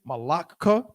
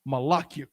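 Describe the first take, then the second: First: The ending attaches directly with no y sound. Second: A y sound comes before the ending. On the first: The speaker calls it wrong. "it's not wrong" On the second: The speaker calls it right. "more aesthetically correct"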